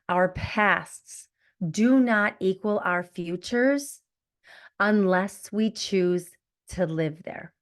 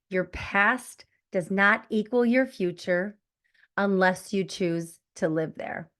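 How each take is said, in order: First: It is said slowly and deliberately. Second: It is said at a normal pace.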